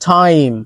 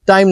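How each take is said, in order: First: The first t has a puff of air. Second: The first t has no puff of air. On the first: The speaker calls it right. "ঠ" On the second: The speaker calls it wrong. "টাইম না কিন্তু"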